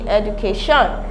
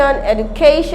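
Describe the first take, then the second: First: The stress is not on the third syllable. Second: The stress is on the third syllable. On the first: The speaker calls it wrong. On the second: The speaker calls it right.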